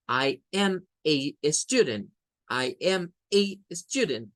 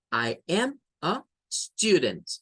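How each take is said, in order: First: "a" stressed as a long "ay"; slow, word by word, leaning on "a" rhyming with "day"; fuerza en el artículo. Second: "a" as a short "uh", the weight on "student"; slow "I am a student", short "a", stressed "student"; artículo con schwa. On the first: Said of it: "la fuerza de voz recae en esta". ("a" larga y acentuada, como "ei") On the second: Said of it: "si lo leemos con a". ("a" corta, fuerza de voz en "student") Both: Shown as a demonstration.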